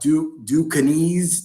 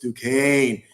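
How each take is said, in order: First: The name is said with three syllables. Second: The name is said with two syllables. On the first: The speaker calls it wrong. "They didn't know how to pronounce it" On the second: The speaker calls it right. "I had to correct them"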